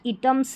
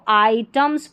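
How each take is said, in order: First: The first vowel sounds like 'ih'. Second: The first vowel sounds like 'eye'. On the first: The speaker calls it wrong. "इटम्स नहीं पढ़ेंगे" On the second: The speaker calls it right. "इसको आइटम्स पढ़ना है"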